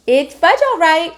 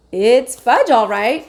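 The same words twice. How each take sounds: First: Put-on higher toddler echo, proud; a small boy parroting his brother; little Fudge echoing. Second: Said in the usual way. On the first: A narrator's reading. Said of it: "my brother repeated".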